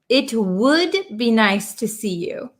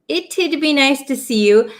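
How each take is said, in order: First: The first two words are said in full. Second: The contraction has a t then a d. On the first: "It would" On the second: "it's a little bit uncommon to hear the t and then the d sound"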